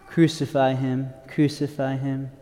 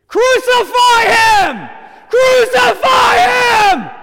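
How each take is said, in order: First: It is said in a flat, mundane way. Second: It is shouted with loud, intense energy.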